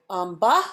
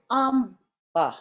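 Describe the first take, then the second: First: AMBA lifting on the second syllable, like a question; amba with rising final syllable. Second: AMBA drawn out slow, high first syllable, falling end; amba stressed on first syllable. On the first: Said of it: "I don't say amba". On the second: Teacher showing the correct accent, slow amba falling at the end. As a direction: stretch "amba", leaning on AM and dropping the BA. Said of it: "I say amba". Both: Shown as a demonstration.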